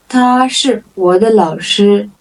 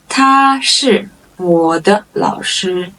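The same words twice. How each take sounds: First: Said in the usual way. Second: Drawn-out words with gaps; slow model sentence. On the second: Shown as a demonstration. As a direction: stretch each word for learners. Model sentence, slow first take.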